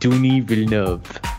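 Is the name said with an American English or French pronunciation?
French. The name is said with a French pronunciation. The speaker calls it right. "he says in a lot of his interviews, it's Denis Villeneuve"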